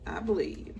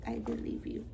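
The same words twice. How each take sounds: First: Said in the usual way. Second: "I believe you" whispered, voiceless and soft. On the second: Shown as a demonstration. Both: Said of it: "I believe you (repeated)".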